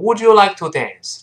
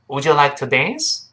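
First: The voice falls at the end. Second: The voice rises at the end. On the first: The speaker calls it wrong. "不要读成Would you like to dance? 这不对哦" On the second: The speaker calls it right. "这是一般疑问句，最后是声调喽"

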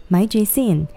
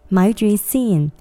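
The two takes are said the same way.

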